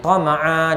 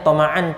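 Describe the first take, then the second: First: The word ends with a long vowel, no n. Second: The word ends with an n sound. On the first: This is how it is read when stopping. "Tama'a dua harakat" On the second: This is the original form with tanwin. "asalnya tama'an tanwin"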